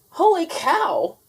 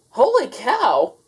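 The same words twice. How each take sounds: First: High, loud, slow holler. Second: Second holy cow. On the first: Manny the cook hollering, high slow and loud. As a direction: holler it across the diner. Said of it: "hollered Manny the cook". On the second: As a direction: say it again just as he means it. Same words, his thought. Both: A narrator's reading.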